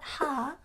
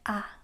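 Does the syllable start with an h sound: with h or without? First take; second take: with h; without. First: The syllable begins with a clear h sound. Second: The syllable begins with no h sound. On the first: The speaker calls it wrong. "Make sure this is not ha" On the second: The speaker calls it right. "but ah"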